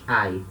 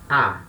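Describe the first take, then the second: First: It is said as a diphthong, a then i. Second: It is said as one single a vowel. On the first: The iota is still read as a separate sound. The speaker calls it wrong. "Não mais ai" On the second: The iota is written under the vowel and is silent. The speaker calls it right. "o som fica A"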